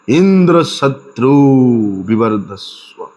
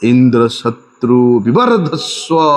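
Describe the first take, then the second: First: The stress falls on the first syllable, In. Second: The stress falls on the end of the compound. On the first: It asks for one whom Indra will slay. The speaker calls it wrong. "ई शब्द जो है जोर लगा के बोल रहे हैं" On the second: It asks for one who will slay Indra. The speaker calls it right. "आद्योदांत मतलब अंतिम में उसका जोर लगाना चाहिए था।"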